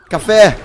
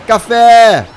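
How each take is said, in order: First: Said in the usual way. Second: Loud call of the item; excited call. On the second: Real, not acted. Player spotting coffee, loud excited call. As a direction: call it out loudly. Calling out in game.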